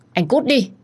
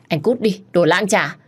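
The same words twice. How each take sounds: First: Very high, loud scream of get out; furious wife screaming him away. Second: High, loud furious outburst; spitting insult at the cheating husband; angry shout. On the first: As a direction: shriek it at the door. Repeated order to leave. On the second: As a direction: throw him out with rage. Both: A narrator's reading.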